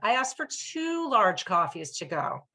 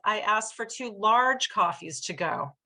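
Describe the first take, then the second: First: The stress is on the word two. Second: The stress is on the word large.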